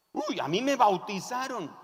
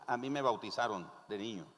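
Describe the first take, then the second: First: Lightly acted boast with a higher pitch; boastful believer. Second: Said in the usual way. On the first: Nominal believer defending that they know God, lightly boastful. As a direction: give a little "uy" of self-assurance.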